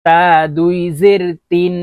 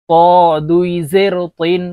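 First: তা and তিন with a light, thin t. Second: ক said as a long, heavy, rounded to, তিন as thick toin. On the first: Teacher modelling for learners, তা with a thin t. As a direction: keep the t in তা and তিন light, vowel long. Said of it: "তা পাতলাভাবে উচ্চারণ করতে হবে". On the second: Teacher modelling for learners, ক as a thick, emphatic to. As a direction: fill the mouth for ক, a heavy t. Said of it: "ত মোটা করে". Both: Shown as a demonstration.

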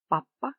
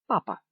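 First: "Папа" with a long held P; double P. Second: Said in the usual way. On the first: Shown as a demonstration. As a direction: hold the lips shut on the middle P of "Папа". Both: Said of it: "з однією або подвоєною літерою".

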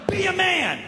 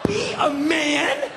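First: Goading challenge. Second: High, drawn-out disbelieving question; incredulous echo. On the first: Burglar goads the homeowner. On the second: Homeowner repeating burglar's challenge, incredulous. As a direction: throw it back slowly, pitched way up. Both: Retold or imitated.

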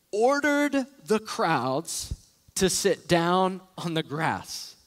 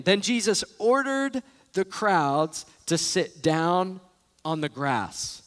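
First: Slow reading. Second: "ordered" slow, stretched and weighted; stress on ordered. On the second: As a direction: read it slowly, leaning on "ordered". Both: Shown as a demonstration. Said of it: "read that again".

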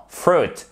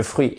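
First: Fruit à l'anglaise, « frout »; prononciation corrigée. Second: Fruit à la française, « fru-ite »; mauvaise prononciation. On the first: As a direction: dis fruit avec un long « ou », sans « ui ». (fruit en « frout », plus haut) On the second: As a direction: dis fruit avec le « ui » français et un t final. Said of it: "et pas fruit". (fruit prononcé « fru-ite », à la française) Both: Shown as a demonstration.

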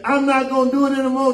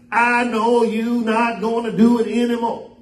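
First: Quick, higher-pitched mock refusal; imitated child's protest. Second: Sung, make a teasing little song of it; sung, mocking sing-song. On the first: Child talking back to a scolding parent, imitated protest. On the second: Sung, parent mocks the child's refusal, in sing-song. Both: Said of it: "then they make a song out of it".

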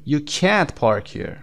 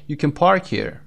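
First: Slow, can't drawn out and stressed; stretched can't. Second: Unstressed, very short can before a stressed park; weak can. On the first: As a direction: lean long on can't. (can't کشیده و با تأکید) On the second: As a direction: pass lightly over can, hit park. (can کوتاه و ضعیف، تأکید روی park) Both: Shown as a demonstration.

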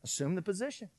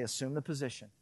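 First: Put-on soft, firm order to the child; hushed parent giving the order; stern quiet command. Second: Softer, lower firm order; hushed commanding God; God's stern quiet command. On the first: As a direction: say it low and controlled, no room to argue. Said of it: "and I would say". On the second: Retold or imitated. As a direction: say it as a calm divine father. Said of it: "God's gonna say".

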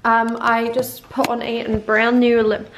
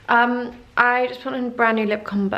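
First: Slow, louder put-on South African accent. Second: Said in the usual way. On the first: Shown as a demonstration. Vlogger showing her lip combo in a put-on South African accent. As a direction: slip into a mock South African lilt. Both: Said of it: "I need to stop speaking in South African".

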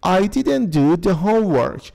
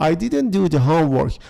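First: Slow model reading. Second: Said in the usual way. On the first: Shown as a demonstration. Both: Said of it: "when وقتی که".

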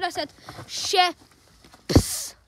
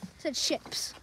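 First: Ships drawn out very slowly; stressed ships. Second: Whispered, said softly; whispered ships. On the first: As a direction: stretch the word ships. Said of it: "I did not say the S word". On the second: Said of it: "I don't swear, I promise". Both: Shown as a demonstration.

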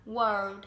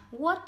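First: "world" low and drawn out, with R and final D; correct world pronunciation. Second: "wood" said with no R or L, standing in for world; mispronounced world. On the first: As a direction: slowly round the lips into "world". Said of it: "mà phải đọc là world". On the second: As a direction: say "wood" as the wrong reading of world. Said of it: "nhưng nó không phải đọc như vậy đâu". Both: Shown as a demonstration.

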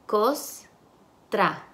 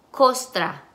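First: Costra split as "cos... tra" with a pause; syllable by syllable. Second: Said in the usual way. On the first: Shown as a demonstration. Teacher segments the word for students, syllable by syllable. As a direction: break Costra into two separate syllables. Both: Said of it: "Y las sílabas".

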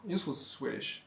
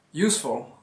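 First: Whispered echo, much softer. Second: Said in the usual way. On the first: Shown as a demonstration. Vlogger to viewers, a whispered repeat. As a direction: whisper it to stress it.

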